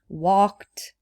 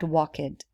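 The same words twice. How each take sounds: First: The ending adds no extra syllable. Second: The ending is said as an extra syllable. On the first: The speaker calls it right. "you just add it without adding a syllable" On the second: The speaker calls it wrong. "So it's not walked"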